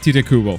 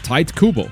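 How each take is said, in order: First: The name is said with Japanese-style pronunciation. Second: The name is said with English-style pronunciation. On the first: "because it's a Japanese pronunciation or close to" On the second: "I hear every English uh, YouTuber call him"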